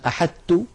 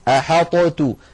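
First: The ṭ is fully merged into a doubled t. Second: The ṭ is pronounced separately with an echoing release. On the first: "هذا لم تفعله العرب، وهو أيضا لو تأملتموه تجدونه ممجوج" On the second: "ولو أظهرنا الطاء لابد من قلقلتها ... تجدونها ثقيلة"

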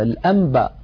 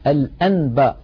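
First: The sound before the b is an m. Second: The sound before the b is a clear n. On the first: The speaker calls it right. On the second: The speaker calls it wrong.

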